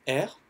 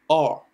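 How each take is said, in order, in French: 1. La lettre se prononce à la française. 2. La lettre se prononce grave, du fond de la gorge. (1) "en français, c'est R" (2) "En anglais, ça donne R. ... qui se prononce très grave"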